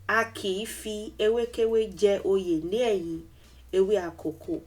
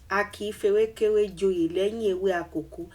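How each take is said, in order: First: Each word is said separately in full form. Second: Neighboring words are merged into contracted forms. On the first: "If you separate the words" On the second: "this is a shrunk version of this statement"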